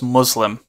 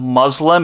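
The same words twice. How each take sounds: First: The middle consonant is a hissing S. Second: The middle consonant is a buzzing Z. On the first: The speaker calls it right. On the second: The speaker calls it wrong.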